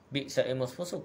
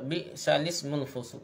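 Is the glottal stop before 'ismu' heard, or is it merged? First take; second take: heard; merged. First: A glottal stop separates bi'sal and ismu. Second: The lam takes the vowel, with no glottal stop. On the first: This is the original form of the words. "Asalnya bi'sal ismul fusuq ni" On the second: The vowel moves onto the lam when reciting. "dibaca naqal ni baca bi'salismul fusuq ni"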